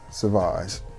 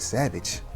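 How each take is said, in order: First: The name is said the French way. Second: The name is said like English 'savage'. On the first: This is the brand's proper name. The speaker calls it right. "she's not gonna pronounce it Sauvage" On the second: A casual fan mispronounces the brand's name. The speaker calls it wrong. "She gonna say, you got some of that Savage?"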